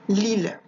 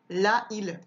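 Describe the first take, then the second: First: The article's vowel is dropped before the noun. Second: The article's vowel is kept before the noun. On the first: The speaker calls it right. "je dis" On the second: The speaker calls it wrong. "je dis pas"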